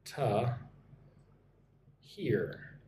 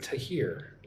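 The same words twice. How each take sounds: First: 'To', long gap, then 'hear'; syllable by syllable. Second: 'to hear' joined, weak 'to' and stressed 'hear'; linked as one word. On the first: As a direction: break 'To hear' into two separate pieces. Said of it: "to hear is like one word". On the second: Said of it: "is like one word". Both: Shown as a demonstration.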